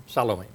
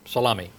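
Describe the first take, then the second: First: Salome ending in "-may"; Salome with a long A ending; pronunciation of Salome. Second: Salome ending in "-mee"; Salome rhyming with salami; pronunciation of Salome. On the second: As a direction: say Salome as suh-LAH-mee. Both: Shown as a demonstration. Offers alternative pronunciations of name.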